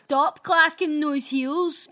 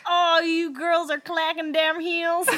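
First: Loud, slow, drawn-out scolding; higher, mock-indignant telling-off; neighbour's complaint. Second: Loud, slow mock Southern drawl; high, hammed-up Southern American complaint; Deep South accent. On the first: Correcting her impression of the complaining neighbour, loud slow scolding. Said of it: "she probably said it like". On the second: Retelling a neighbour's noise complaint, exaggerated Deep South accent. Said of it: "the deep south of America".

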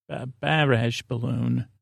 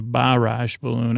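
First: Slow, soft "barrage" with flat Syracuse "a" vowels; Syracuse accent. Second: Said in the usual way. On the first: Shown as a demonstration. Host testing the hometown pronunciation, "barrage" in a quiet, slow Syracuse accent. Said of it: "what would I say in Syracuse?". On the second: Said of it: "But they call it a".

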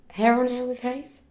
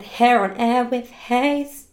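First: HAIR ON AIR WITH HAYES said higher, rising as a question. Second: Said in the usual way. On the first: Real, not acted. Double-checking the email address, questioning rise on "Hair on Air with Hayes".

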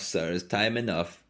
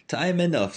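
First: Said in the usual way. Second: High sing-song "Time enough"; high lilting voice. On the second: Acted. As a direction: lift "enough" up high and let it fall. Milkwoman repeats phrase.

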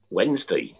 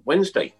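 First: Said in the usual way. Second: High rising Wednesday, called out; announcing. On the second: Shown as a demonstration. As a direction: call it out like an announcer.

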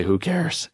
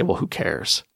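First: Higher, upbeat who cares with a rising lift; a cheerful victor brushing off trouble; victor's bold shrug. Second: A defeated victim muttering who cares; victim's shrug. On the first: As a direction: toss it off brightly like a winner. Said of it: "get out of bed and say". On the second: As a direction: drop it like you've given up. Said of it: "they cross their arms because they realize they got a lousy life". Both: Retold or imitated.

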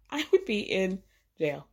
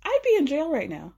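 First: "would" stressed, falling; "I would be in jail" with a falling "would". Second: "be" pitched up and stressed; "I'd be in jail" with "be" stressed. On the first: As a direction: hit "would" hard. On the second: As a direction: lean on "be". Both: Shown as a demonstration.

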